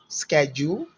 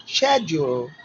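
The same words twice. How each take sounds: First: American "schedule" starting with SK; hard K in "schedule," American style; American pronunciation. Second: British "schedule" starting with SH; British pronunciation. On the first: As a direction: say "schedule," as "sked-jool", rising. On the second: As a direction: say "schedule," as "shed-jool". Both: Shown as a demonstration.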